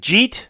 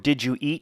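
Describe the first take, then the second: First: The words are squeezed into one short syllable. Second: The three words are said separately and fully. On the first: "You'd say to a buddy, jeet" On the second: "if you say did you eat"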